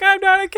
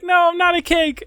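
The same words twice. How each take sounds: First: High, loud hammed-up plea; high loud mock plea. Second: High, loud hammed-up denial; high loud protest. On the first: Acted meme victim line. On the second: Acted meme man protesting.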